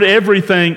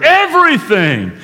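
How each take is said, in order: First: Said in the usual way. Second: EVERYTHING pitched high with a long fall; big, emphatic, high-pitched EVERYTHING; shouted EVERYTHING. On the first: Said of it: "that receives the greatest emphasis". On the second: Acted. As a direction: cry out EVERYTHING as the key word. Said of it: "the Holy Spirit shouts this word".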